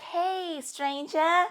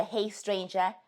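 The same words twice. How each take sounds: First: Higher, sing-song fake-friendly hello; mock sweet greeting. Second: Said in the usual way. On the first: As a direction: imitate the ghoster's breezy comeback hello. Mocking the ghost who reappears.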